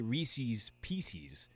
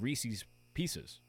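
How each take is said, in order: First: The two words are said so they rhyme. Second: The two words are said so they don't rhyme. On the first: This is the common everyday way to say it. "we always say Reese's Pieces, or most people say that, because it just rhymes" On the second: This follows how the word is spelled. "instead of Reese's Pieces"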